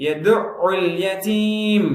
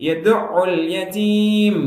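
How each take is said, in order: The two takes are said the same way.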